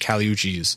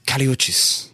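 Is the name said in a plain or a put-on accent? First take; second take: plain; put-on. First: The name is said in a plain accent. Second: The name is said in a put-on accent.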